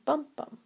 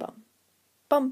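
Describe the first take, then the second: First: It is said at a faster pace. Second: It is said at a slow pace. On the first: "then a faster version" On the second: "a slow"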